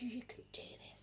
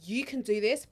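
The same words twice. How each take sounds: First: Soft whispered pep talk; gentle encouragement. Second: Voiced, matter-of-fact pep talk; firm encouragement. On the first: Acted. Acting herself as midwife, gentle whispered encouragement. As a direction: whisper it tenderly to a labouring mother. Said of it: "But most of me, it's like". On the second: Acting the no-nonsense midwife to herself, firm encouragement. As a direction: tell her plainly she can do it. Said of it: "I need a midwife that's gonna be like".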